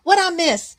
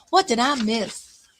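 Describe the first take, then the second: First: High, loud quick read of a chat line; misread chat question. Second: Said in the usual way. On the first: Real, not acted. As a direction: blurt out the misread "What I miss?" before correcting.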